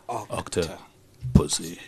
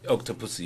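First: The stress falls on the second part, pussy. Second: The stress falls on the first part, octo. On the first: The speaker calls it right. "You stress on the second part of the word" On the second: The speaker calls it wrong. "you don't say it like that"

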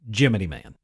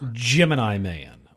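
First: Gemini is pronounced with altered sounds. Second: Gemini is pronounced the usual way. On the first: The speaker calls it wrong. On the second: The speaker calls it right.

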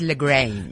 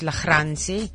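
First: The g is a plain hard stop. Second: The g is a rasping sound from the throat. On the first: This is how it is said in other countries. "Abroad, I'm known as LaGrange" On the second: This is how it is said locally. "In South Africa, most people pronounce it LaGrange. Because we can do the g sound"

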